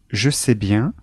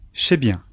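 First: The pronoun starts with a voiced 'j' sound. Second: The pronoun starts with a voiceless 'ch' sound.

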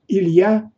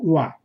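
First: The phrase is said fully with the first sound. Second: The first sound is dropped, leaving only 'ya'. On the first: "«Илья» произносится как" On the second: "произносится как «уа»"

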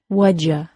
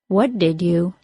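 First: D and Y merge into J; you becomes ya. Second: All three words are said fully and separately.

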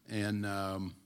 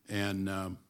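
The two takes are said the same way.

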